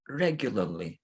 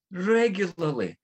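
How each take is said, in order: First: Said in the usual way. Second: Regularly said high, slow and weighty; Regularly stretched out for emphasis; Regularly stressed slowly. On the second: Real, not acted. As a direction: lean on Regularly, drawing it out. Repeated for emphasis.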